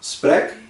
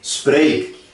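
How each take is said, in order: First: The vowel is short and closed. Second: The vowel is long and open. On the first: The speaker calls it wrong. "ele está muito fechado, ele está parecendo que está dentro de um copinho" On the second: The speaker calls it right. "deu um turbo na palavra para a palavra suar mais para fora"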